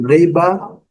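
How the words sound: It is said in a British accent. "No inglês britânico"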